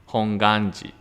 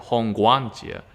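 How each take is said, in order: First: The middle syllable has no w sound. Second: The middle syllable has a w sound. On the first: The speaker calls it right. "actually, the pronunciation is like uh, Honganji, like without W" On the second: The speaker calls it wrong. "most of people pronounce this as Hongwanji"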